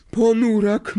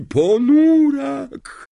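First: High, loud seer's cry. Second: High, loud, very slow drawn-out wail on ponurak; wailing cry. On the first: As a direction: announce the doom with a shriek. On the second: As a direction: stretch ponurak into a doom-laden wail. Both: A narrator's reading. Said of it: "zawołała profesor Trelawney".

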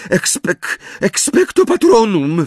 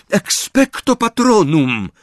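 First: False start, then high faltering incantation; stammered spell. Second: High, slow, unbroken spell; focused incantation. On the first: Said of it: "wyjąkała Hermiona". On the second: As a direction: cast it slowly and steadily, pitched high. Retried spell after told to concentrate. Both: A narrator's reading.

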